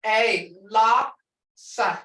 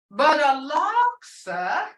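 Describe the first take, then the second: First: A laksa drawn out and falling; slow tone demo. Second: Laksa said slowly, rising at the end. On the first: Teacher demonstrating laksa, the hoof. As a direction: say laksa slowly, falling at the end. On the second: Teacher contrasting laksa, the liar. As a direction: lift laksa like a question. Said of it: "you can't say this tune". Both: Shown as a demonstration.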